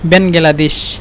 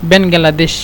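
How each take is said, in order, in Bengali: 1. নামটি চার ভাগে উচ্চারিত হয়: Ben-ga-la-desh। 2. নামটি চার ভাগে উচ্চারিত হয়: Ben-ga-la-desh।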